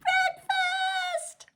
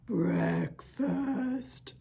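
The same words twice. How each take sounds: First: The word is said in a very high voice. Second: The word is said in a very low voice. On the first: "Let's say breakfast as high as we can" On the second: "Let's say breakfast as low as we can"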